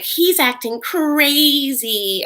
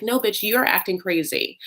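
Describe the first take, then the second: First: High, drawn-out mocking wail on "crazy"; mock accusation. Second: "you're" hit hard in a firm comeback; stress on "you're". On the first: Lizzie calling him out, retold as mock accusation. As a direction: stretch it out slowly in mock outrage. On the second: Acted. Host talking back to Lizzie, stress on "you're". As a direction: throw it back, leaning on "you're". Speaker retorts to Lizzie's accusation.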